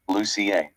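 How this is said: It is said the Scandinavian way. "if you're from Scandinavian countries"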